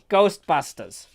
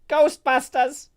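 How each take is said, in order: First: The put-on voice is pitched lower. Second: The put-on voice is pitched higher.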